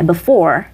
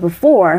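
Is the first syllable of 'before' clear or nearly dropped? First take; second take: clear; dropped. First: Both syllables are pronounced clearly and fully. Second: The first syllable is rushed and nearly dropped. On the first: "물론 before이 틀리진 않죠" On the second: "굉장히 이게 빨리 지나가 버려서 before, for만 들리는 경우가 있어요"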